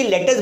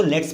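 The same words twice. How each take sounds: First: "लेटस" as two syllables, let-us; uncontracted "लेटस", let us; full two-word form. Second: "लेट्स" in one syllable; short "लेट्स", no vowel before the s; contracted short form. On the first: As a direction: say "लेटस" long, with a vowel before the s. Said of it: "लेटस बोलने में थोड़ा बड़ा लगता है". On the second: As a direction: run t straight into s in "लेट्स". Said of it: "इसीलिए इसको लेट्स पढ़ा जाता है". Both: Shown as a demonstration.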